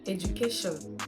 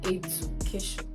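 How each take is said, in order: First: The d sounds like j before the u. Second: The d is a plain d sound. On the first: The speaker calls it right. "It is pronounced as education" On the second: The speaker calls it wrong. "not education"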